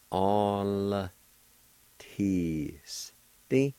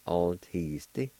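First: "All... teasty" drawn out slowly, L closing the first syllable; L joined to A. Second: "All teasty" as one word, L closing the first syllable; joined-up pronunciation. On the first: Teacher showing the L in "All teasty", slowly sounded out. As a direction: stretch each syllable of "All teasty", with pauses. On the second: Teacher giving learners the whole word "All teasty", joined up. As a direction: say "All teasty" without long breaks. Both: Shown as a demonstration. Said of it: "you can pronounce the L sound with the first A like this".

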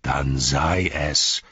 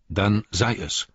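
First: Slow, heavy bitter outburst; a touch of angry calling out; bitter cry. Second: Understated resigned calm; calm resignation. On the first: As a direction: throw his son's words back at him. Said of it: "rief Denethor". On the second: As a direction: yield calmly, letting it go. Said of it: "sagte Faramir". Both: A narrator's reading.

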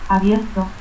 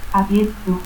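First: Said in the usual way. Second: Abierto as "abiettu". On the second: Shown as a demonstration. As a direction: stop for R in Abierto, final u. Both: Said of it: "confusión de R y T al final de sílaba".

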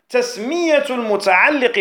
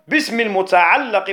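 First: المتعلق with an "i" after the doubled lam; kasra on المتعلق. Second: المتعلق with an "a" after the doubled lam; fatha on المتعلق. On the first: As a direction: say المتعلق as al-muta'alliq. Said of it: "بالكسر". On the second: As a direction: say المتعلق as al-muta'allaq. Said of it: "بالفتح". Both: Shown as a demonstration.

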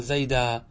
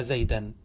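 First: زيدا ending in long aa, no n; pausal form zayda. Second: زيدا said zaydan, with final n; unpaused form zaydan. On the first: Teacher answers how to pause on it, long final aa. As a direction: drop the tanween, hold the alif of زيدا. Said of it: "تقول". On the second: Teacher compares it with idhan, ending in -an. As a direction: sound the tanween at the end of زيدا. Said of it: "كيف قلت في زيدا؟". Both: Shown as a demonstration.

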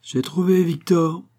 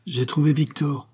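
First: Slow, high exclamation of victory; almost triumphant cry. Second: Mild exclamation, a little higher; cried out. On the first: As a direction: cry it out drawn-out, nearly triumphant. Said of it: "d'un ton presque victorieux". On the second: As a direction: call out the discovery, moderately. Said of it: "s'écria Volpi". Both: A narrator's reading.

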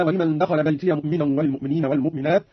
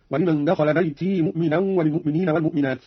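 First: Said in the usual way. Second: بيتي ending in a long "ee", no "ya"; silent-vowel ya. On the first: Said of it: "قوله تعالى". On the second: Shown as a demonstration. Teacher showing Qalun's linking, بيتي said "baytee". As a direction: run بيتي on as "bayti", ya unvowelled. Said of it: "أسكن قالون الياء وصلا هكذا".

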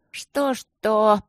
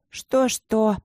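First: Higher, louder, slurred "Что-что?" with a tongue tripping over it; drunken grumble. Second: Higher, louder grumble, clipped off; grumbling. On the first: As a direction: mumble the "Что-что?" thick with wine. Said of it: "заплетающимся языком буркнула Эбигейл". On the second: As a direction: grumble the repeated "Что-что?" sharply, still sober. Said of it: "буркнула Эбигейл". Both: A narrator's reading.

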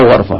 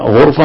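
First: غرفة with an a after the gh; fatha on ghayn. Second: غرفة with a u after the gh; damma on ghayn. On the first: Teacher weighing two readings for student, fatha on غرفة, "gharfa". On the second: Teacher weighing two readings for student, damma on غرفة, "ghurfa". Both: Shown as a demonstration. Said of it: "هل هي مضمومة ولا مفتوحة".

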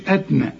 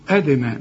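First: أدنى with a dead, unbounced د; dal without qalqala. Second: أدنى with a bouncing echo after the د; qalqala on dal. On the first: Teacher shows what not to say, dal without qalqala. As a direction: run د straight into ن in أدنى, "adna". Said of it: "ما تقولش أدنى". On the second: Teacher models the rule for a student, qalqala on dal. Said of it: "سكون قلقلها". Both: Shown as a demonstration.

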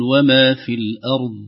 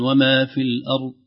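First: الأرض with the final ض voiced clearly, slowly and louder; clear dad. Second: الأرض ending with the ض dropped so it vanishes; dad swallowed. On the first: Teacher showing the correct final ض slowly. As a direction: let the ض in الأرض be heard, no bounce. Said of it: "نقول". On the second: Teacher showing the mistake of a hidden ض. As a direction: say الأرض without releasing the ض at all. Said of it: "أو يمنعها تمامًا". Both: Shown as a demonstration.

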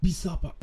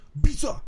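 First: Said in the usual way. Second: Sudden high, loud "bisa"; loud affirmation. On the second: Shown as a demonstration. Trainer shows a client how to say "bisa" louder, high and loud. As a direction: punch out "bisa" as a sharp, loud high cry. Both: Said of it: "Kalau mau ditambah ngomongnya".

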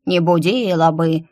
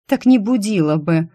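First: Mocking mimicry. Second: Said in the usual way. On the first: A narrator's reading. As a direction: mimic the words back in a teasing put-on voice. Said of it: "передразнила белка". (передразнивая, исказить голосом «Не будила бы») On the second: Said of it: "резонно заметила я".

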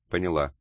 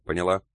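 First: "Поняла" falling as a statement; submissive answer. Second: "Поняла" rising as a question; demanding question. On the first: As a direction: drop the end of "Поняла" in acknowledgement. Secretary submissively answers the boss. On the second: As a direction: lift the end of "Поняла" to demand an answer. Boss demands confirmation from secretary. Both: A narrator's reading.

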